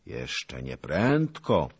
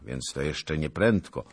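First: "Jeszcze nie prędko" drawn out slowly, "prędko" weighted; pointed repetition. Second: Said in the usual way. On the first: Acted. Zagłoba making his listeners note the clue, slow and pointed. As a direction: slowly underline "prędko", pitched higher.

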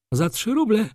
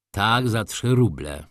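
First: High-pitched, sharp disbelieving question; incredulous baroness. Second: Slow, measured, unruffled answer; firm confirmation. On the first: Baroness challenges Wokulski on the price, incredulous. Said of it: "spytała baronowa, błysnąwszy oczyma jaszczurki". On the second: Wokulski answers the baroness, measured and firm. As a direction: confirm it slowly and evenly. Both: A narrator's reading.

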